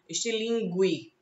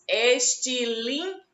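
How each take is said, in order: First: The U after the G is pronounced. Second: The U after the G is silent. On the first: The speaker calls it wrong. "Não se diz assim" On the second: The speaker calls it right. "também não tem o som do U pronunciado ... o som do U fica oculto"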